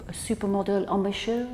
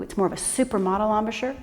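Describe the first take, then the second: First: Softer, light mock French accent on supermodel embouchure; a playful hint of a French accent. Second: Said in the usual way. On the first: Shown as a demonstration. Flute teacher showing students a soft mock French accent. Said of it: "try it with a French accent". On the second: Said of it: "not a Barbie embouchure".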